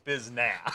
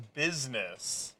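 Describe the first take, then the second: First: The word is said as slangy 'biznass'. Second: The word has its standard pronunciation. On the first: "and then says biznass" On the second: "He says business correctly"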